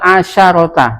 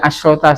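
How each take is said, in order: First: A vowel follows the middle consonant. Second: No vowel follows the middle consonant. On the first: This is how it was memorized in childhood. "yang saya hafalkan dulu pas kecil" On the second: This is how the book writes it. "kalau di buku asrota ya iya pakai sukun"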